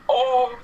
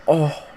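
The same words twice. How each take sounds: First: High, loud blowfish-style "Oh!"; puffed-up pufferfish noise. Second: High squealed blowfish "Oh!"; puffed-up pufferfish noise. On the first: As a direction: puff up and squeal "Oh!". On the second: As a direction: puff your cheeks and squeak "Oh!". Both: Retold or imitated. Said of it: "make the blowfish noise".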